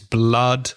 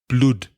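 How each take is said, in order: First: The vowel is a short 'uh' sound. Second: The vowel is a long 'oo' sound. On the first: The speaker calls it right. "it's blood, um, and other words with double O that have the ah sound" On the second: The speaker calls it wrong. "I pronounced it wrong, or badly, by saying blood because of the double O"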